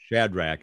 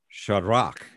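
First: The name is pronounced the usual English way. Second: The name is pronounced in a non-English way.

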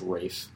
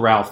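First: The name is said differently from its spelling. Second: The name is said the way it is spelled. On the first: The speaker calls it right. "but it's pronounced Ralph" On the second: The speaker calls it wrong. "It's spelled Ralph"

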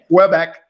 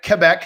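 First: The name is said with an English accent. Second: The name is said with a French accent. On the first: "as opposed to Quebec" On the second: "If I try to say that even closely with a French accent"

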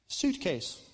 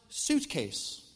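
Both takes have the same delivery.

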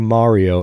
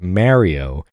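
First: Mario is said in a standard, non-New York way. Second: Mario is said in a New York way. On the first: "I was very careful just then to say Mario" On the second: "as I know it to be pronounced because I'm from New York"

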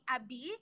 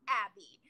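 First: The name is said with Brazilian Portuguese pronunciation. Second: The name is said with English pronunciation. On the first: The speaker calls it right. "people in Brazil call me Abi" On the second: The speaker calls it wrong. "not Abby"

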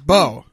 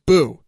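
First: The vowel sounds like 'oh'. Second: The vowel sounds like 'oo'. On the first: The speaker calls it right. "It's Bo" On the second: The speaker calls it wrong. "People mispronounce it as Boo"

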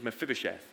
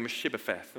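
First: The name begins with 'Meph' and ends with 'sheth'. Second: The name begins with 'Mesh' and ends with 'pheth'. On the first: The speaker calls it right. "the pronunciation of Mephibosheth" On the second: The speaker calls it wrong. "I will mispronounce Mephibosheth... I keep going Meshibopheth"

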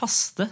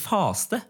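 First: The vowel is said short and plain. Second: The vowel is drawn out long. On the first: This is the correct standard form. "det korrekte å si" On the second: This is how the speaker's group says it in dialect. "vi sier faste"

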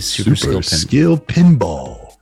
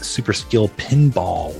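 First: It is said in a booming, dramatic announcer voice. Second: It is said in a plain, ordinary speaking voice. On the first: The speaker calls it right. "Put on your announcer voice and you say" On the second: The speaker calls it wrong. "That's not how you say it"

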